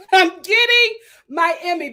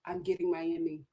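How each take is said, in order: First: Loud, higher, emphatic repeat; producers' glee. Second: Low, hushed imitation of the producers; quiet, scheming-producer aside; producers' aside. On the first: Retold or imitated. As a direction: imitate producers crowing out loud. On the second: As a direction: say it softly to yourself, pitch dropped. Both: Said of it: "the producers were just like".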